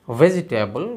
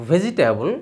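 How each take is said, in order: First: ভেজিটেবল with a true v; English v sound. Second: ভেজিটেবল with an aspirated bh; Bengali bh sound. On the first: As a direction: say ভেজিটেবল with lips on teeth. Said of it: "কিন্তু ভি এর উচ্চারণ ভ নয়". (ভেজিটেবল শব্দে ইংরেজি ভি উচ্চারণ) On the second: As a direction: say ভেজিটেবল as bʱejitabu. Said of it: "কিন্তু উচ্চারণ করছি ভেজিটেবল". (ভেজিটেবল শব্দে মহাপ্রাণ ভ উচ্চারণ) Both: Shown as a demonstration.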